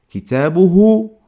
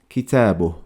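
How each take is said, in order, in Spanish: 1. La palabra termina en la vocal u final. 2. La vocal final se omite y termina en h. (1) "Hay que añadir una letra ha con damma" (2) "a la hora de pronunciarlo se dice kitabuh"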